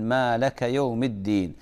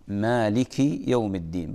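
First: مالك as malaka with an open a; obvious error. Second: مالك with a short i, malik; correct recitation. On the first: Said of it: "لحن جلي". (مالك بفتح اللام خطأ) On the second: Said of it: "بعض الناس يقول". (مالك بكسر اللام) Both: Shown as a demonstration.

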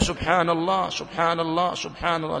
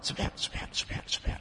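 First: Every letter of "سبحان الله" said fully and clearly, quietly; proper pronunciation. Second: "سبحان" rushed and clipped to "sba", whispered almost silently; swallowed letters. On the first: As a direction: pronounce "سبحان الله" carefully, nothing swallowed. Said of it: "هكذا". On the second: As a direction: gabble "سبحان" so the letters get eaten. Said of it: "يأكل الحروف أكلا". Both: Shown as a demonstration.

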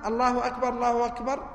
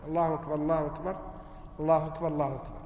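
First: Each الله أكبر said as its own phrase, a touch higher; two distinct takbirs; separate takbirs. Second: الله أكبر، الله أكبر joined fast in one breath, a little lower; quick joined takbirs; run together as one. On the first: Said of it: "فقال العلماء". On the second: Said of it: "بمثابة لفظ واحد". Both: Shown as a demonstration.

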